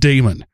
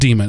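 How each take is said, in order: First: The first vowel sounds like 'day'. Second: The first vowel sounds like 'dee'. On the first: It follows English spelling rules. "In the English language, D-A-E is pronounced Damon" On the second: It follows the original Greek pronunciation. "we go all the way back to the Greek pronunciation. And yes, it is demon"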